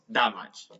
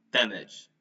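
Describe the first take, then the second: First: "damage" drawn out with a wrong, Spanish-like A; wrong pronunciation. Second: "Damage" as DAM-idge, open "æ" and short ending; correct pronunciation. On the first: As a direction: say "damage" slowly as the mistake, da-match. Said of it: "not damage". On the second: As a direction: stress the first syllable of "Damage" with a flat-tongued short A. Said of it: "so remember". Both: Shown as a demonstration.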